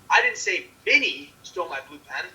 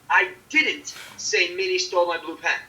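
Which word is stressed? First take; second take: Minnie; didn't. First: The stress is on the word Minnie. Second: The stress is on the word didn't. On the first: Someone else stole the pen. "That someone else stole the blue pen" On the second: The speaker strongly denies having said it. "It's strong denial of having saying said it"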